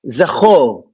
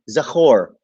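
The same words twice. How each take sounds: First: It is said with a native Hebrew accent. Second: It is said with an American accent.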